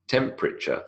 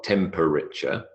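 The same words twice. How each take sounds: First: "temperature" said as TEMP-ri-cher; elided three-syllable temperature. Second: "temperature" slowly in four syllables, TEM-PER-RI-CHER; over-full temperature. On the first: Lecturer showing students the elided form, three-syllable "temperature". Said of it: "three syllables". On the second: Lecturer showing the form to avoid, over-pronounced four-syllable "temperature". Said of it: "Not temperature". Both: Shown as a demonstration.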